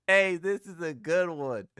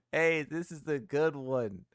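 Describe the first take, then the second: First: "Hey, this is a good one" said louder and slow, laughing through it; laughing delight. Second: "Hey, this is a good one" repeated slowly at normal level, still chuckling. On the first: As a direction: savour the joke out loud, slowly. Laughing at a funny meme. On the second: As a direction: say it again to yourself, amused and slow. Repeating meme praise. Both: Real, not acted.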